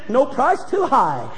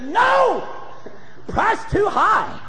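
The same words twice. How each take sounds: First: There is no pause after the word no. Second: There is a pause after the word no. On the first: Any price is acceptable, so buy it. "they forgot to put the little pause" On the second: The price is too high, so do not buy it. "the little pause between the "no" and the "price too high.""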